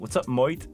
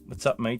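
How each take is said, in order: First: It is said in an imitated Australian accent. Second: It is said in the speaker's own accent.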